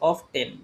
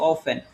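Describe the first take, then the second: First: The t sound is clearly pronounced. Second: The t sound is left out entirely. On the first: The speaker calls it wrong. "যাকে জিজ্ঞেস করবো সেই বলবো এটা অফ টেন" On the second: The speaker calls it right. "টিটা হচ্ছে বাদ যাবে"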